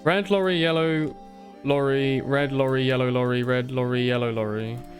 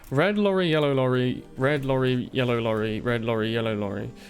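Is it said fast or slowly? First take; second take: slowly; fast. First: It is said slowly. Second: It is said fast.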